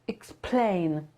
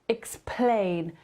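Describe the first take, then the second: No difference in how they are said.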